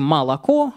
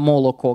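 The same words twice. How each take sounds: First: The unstressed vowels sound like 'a'. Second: The unstressed vowels sound like 'o'. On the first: This is the modern everyday pronunciation. "Мы говорим" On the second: This is the older historical pronunciation. "исторически это"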